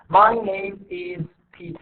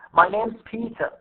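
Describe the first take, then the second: First: Every word is stressed equally. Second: Only name and Peter are stressed. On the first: The speaker calls it wrong. "ما لازم ألفظ هيك" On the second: The speaker calls it right. "this is not stress"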